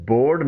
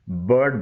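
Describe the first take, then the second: First: بورڈ said "board"; full round o in بورڈ; wrong second syllable. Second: برڈ said "burd"; short neutral vowel in برڈ; correct second syllable. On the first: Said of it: "نہیں بلکہ". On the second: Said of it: "بولا جاتا ہے". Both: Shown as a demonstration.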